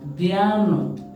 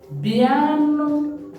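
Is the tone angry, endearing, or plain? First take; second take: plain; endearing. First: It is said in a plain, neutral tone. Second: It is said in a warm, affectionate tone. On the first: A simple call for everyone to come. "Listen to the tone I used" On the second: A fond, affectionate call to come. "this is come, but in an endearing manner"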